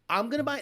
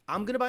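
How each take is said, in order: First: It is said in an exaggerated put-on voice. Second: It is said in an ordinary everyday voice.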